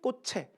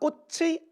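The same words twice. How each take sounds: First: The final vowel is pronounced as a plain 'e'. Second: The final vowel is pronounced as the diphthong 'ui'. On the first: "애도 되니까" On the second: "꽃의도 되고 애도 되니까"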